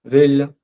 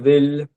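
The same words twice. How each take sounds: First: The vowel is rounded, moved toward o. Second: The vowel is rounded, moved toward o.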